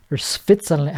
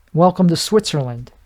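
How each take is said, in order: First: Put-on softer, unsure stab at a Swiss accent; badly faked Swiss accent on "Switzerland"; half-hearted Swiss accent, w turning to f; attempted Swiss accent. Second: Said in the usual way. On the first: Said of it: "I don't know how they st-, how they talk". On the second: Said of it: "how they talk".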